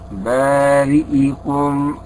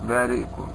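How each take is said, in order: First: The i vowel after the hamza is fully pronounced. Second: The i vowel after the hamza is weakly pronounced. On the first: The speaker calls it right. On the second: The speaker calls it wrong.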